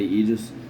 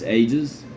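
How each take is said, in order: First: The first vowel sounds like 'ee'. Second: The first vowel sounds like 'ay'. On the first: The speaker calls it wrong. "every once in a while I'll say Aegis" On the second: The speaker calls it right. "but it's Ages"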